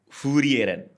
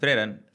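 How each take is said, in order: First: An extra vowel separates the opening f and r. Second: The opening f and r run together. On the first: "Kalau versi Jepang" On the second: "Pelafalan Jerman kalau eh Inggris ya"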